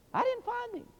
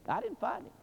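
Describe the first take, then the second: First: Plain. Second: Said in the usual way. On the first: Shown as a demonstration. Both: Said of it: "repeated line".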